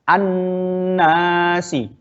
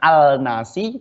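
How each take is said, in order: First: The L merges into a doubled N sound. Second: The L is pronounced clearly before the N. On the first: The speaker calls it right. "tapi yang betul adalah an-nasi" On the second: The speaker calls it wrong. "Bukan al-nasi"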